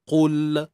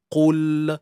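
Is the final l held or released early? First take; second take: released early; released early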